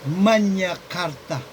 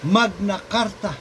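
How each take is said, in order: First: It is said with a Latin-style pronunciation. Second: It is said with an English-style pronunciation.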